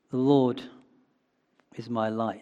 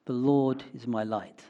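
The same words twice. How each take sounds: First: "The Lord" set apart, then a pause before "is my light"; pause after Lord. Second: Said in the usual way. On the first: Shown as a demonstration. Pastor meditating on the phrase, pausing after "The Lord". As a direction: let "The Lord" hang before finishing. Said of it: "meditate on that phrase". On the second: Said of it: "it begins with five words".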